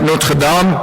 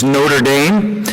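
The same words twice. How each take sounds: First: The name is said in a non-American way. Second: The name is said in an American way.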